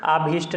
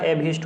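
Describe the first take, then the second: First: आभीष्ट with a long aa at the start; wrong pronunciation. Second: अभीष्ट with a short first vowel; correct pronunciation. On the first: Teacher shows students the misspelt word, wrong long vowel. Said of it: "आभीष्ट नहीं होता". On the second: Teacher gives students the right spelling, short first vowel. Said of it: "अभीष्ट होता है". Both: Shown as a demonstration.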